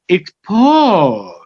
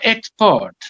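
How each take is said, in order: First: The stress is on the second syllable. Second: The stress is on the first syllable. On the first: It is a verb meaning to send goods. "But if you're sending" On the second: It is a noun. "As a noun, the stress falls on the first syllable"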